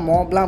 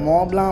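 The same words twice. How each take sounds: No difference in how they are said.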